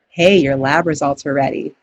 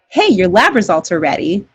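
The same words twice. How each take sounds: First: It is said in a sad, somber tone. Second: It is said in a happy, upbeat tone.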